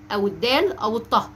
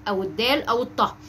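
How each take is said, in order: Both takes have the same delivery.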